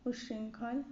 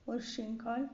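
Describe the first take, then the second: First: उच्छृंखल opened with short U; short opening U. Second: उच्छृंखल opened with an O sound; opening O. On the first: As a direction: start उच्छृंखल as "ush-". (उच्छृंखल की शुरुआत छोटे "उ" से) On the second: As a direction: start उच्छृंखल as "or-". (उच्छृंखल की शुरुआत "ओ" से) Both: Shown as a demonstration. Wrong and right word forms shown.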